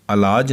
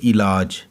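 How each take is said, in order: First: "इलाज" starting with a short a, a-laaj; mispronunciation. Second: "इलाज" starting with a short i, i-laaj; correct pronunciation. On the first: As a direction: open "इलाज" on a instead of i. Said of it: "इलाज नहीं है बल्कि ये इलाज". ("इलाज" को अलाज बोलना) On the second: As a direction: clear short i opening "इलाज". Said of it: "बल्कि ये इलाज". ("इलाज" को इ से शुरू करके इ-लाज बोलना) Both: Shown as a demonstration.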